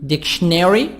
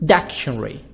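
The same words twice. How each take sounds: First: It is said with an American accent. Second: It is said with a British accent.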